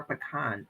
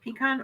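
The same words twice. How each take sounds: First: Pecan said puh-KAHN, with a reduced first vowel; pecan opening on a short "puh"; puh-KAHN pronunciation. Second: Pecan said PEE-kahn, starting on a long ee; pecan opening like the word "pea"; PEE-kahn pronunciation. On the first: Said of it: "or do you say pecan". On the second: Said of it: "do you guys say pecan". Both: Shown as a demonstration.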